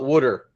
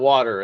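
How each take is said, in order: First: Said in a Baltimore accent, like wooder. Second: Said in a standard accent, like water. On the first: This is how the relatives from Baltimore say it. "all my relatives call it wooder" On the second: This is the usual way to say it. "instead of water"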